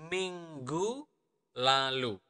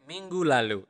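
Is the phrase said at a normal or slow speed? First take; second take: slow; normal. First: It is said slowly and carefully. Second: It is said at a normal speaking speed.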